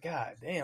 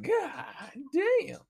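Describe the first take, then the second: First: "God damn" said softly, almost under the breath. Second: "God damn" jumping much higher in amazement, stretched out; shocked high god damn. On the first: Hearing about the coworker's alimony, a soft stunned "God damn". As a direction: let "God damn" slip out quietly in awe. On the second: Told the alimony total, a high astonished "God damn". Hearing the total amount paid. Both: Retold or imitated.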